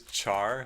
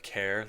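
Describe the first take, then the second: First: It begins with 'ch' and rhymes with 'car'. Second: It begins with a 'k' sound and rhymes with 'care'. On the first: "I pronounce this char, like the English word to, to burn" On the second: "instead of care, like in character"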